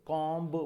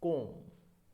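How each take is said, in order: First: The word ends with an audible b sound. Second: The word ends on m with no b. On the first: The speaker calls it wrong. "Normally हम इसे कॉम्ब कॉम्ब बोलते हैं" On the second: The speaker calls it right. "ब बोलना नहीं होता, वो silent रहता है"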